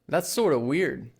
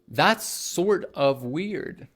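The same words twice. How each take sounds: First: Sort of is blended into a quick sorta. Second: Sort of is pronounced fully, each word separate. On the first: "sort of becomes sorta" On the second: "instead of saying"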